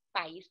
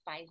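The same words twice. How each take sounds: First: País said as pa-ÍS, two syllables; stress on the I of País. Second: País said as PAIS, one syllable; stress on the A. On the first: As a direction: put the weight on the final IS in País. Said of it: "País tem acento". (País com o I tônico, em duas sílabas) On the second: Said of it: "país não tem". (país dito como pais, numa sílaba só) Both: Shown as a demonstration.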